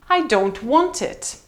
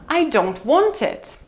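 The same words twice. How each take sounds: Both takes have the same delivery.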